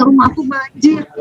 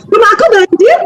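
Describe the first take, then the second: First: Mild mournful complaint; sad telling. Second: High, gleeful announcement; cheerful telling. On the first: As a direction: sigh it out like a small disaster. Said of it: "tuh sedih ceritanya". (keluhan sedih yang lembut) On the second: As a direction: chirp the bad news happily. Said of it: "Tapi dia gembira". (riang dan tinggi, seperti kabar gembira) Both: Retold or imitated.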